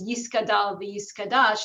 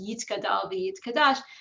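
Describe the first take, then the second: First: It is said with an s sound after 'Yi'. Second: It is said with a t sound after 'Yi'. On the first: It is the older pronunciation used by elderly people. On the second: It is the newer pronunciation taught in Reform institutions.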